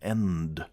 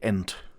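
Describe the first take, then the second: First: The final consonant is soft and voiced. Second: The final consonant is hard and clipped. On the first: This is how an American speaker says it. "that's too soft for an ending in German" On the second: This is how a German speaker says it. "we would say end"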